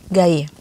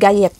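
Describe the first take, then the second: First: The final T sound is silent. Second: The final T sound is pronounced. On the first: The speaker calls it right. "T-nya nggak dibaca karena ini ejaan bahasa Perancis" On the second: The speaker calls it wrong. "Gaye itu bukan gayet ya"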